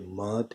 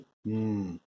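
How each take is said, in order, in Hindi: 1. व्यंजन के बाद छोटा 'a' स्वर आता है। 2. व्यंजन बिना किसी स्वर के अकेला बोला जाता है। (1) "पहले ये म थी" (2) "अब हो गई हम्म"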